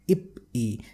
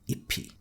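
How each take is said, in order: First: The final consonant stays in the first syllable. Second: The final consonant moves into the next syllable. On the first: The speaker calls it wrong. "in this word we have ip and e" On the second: The speaker calls it right. "this p-up sound will combine with e vowel and it will be read as ippy"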